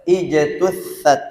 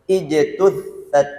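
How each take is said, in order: Both takes have the same delivery.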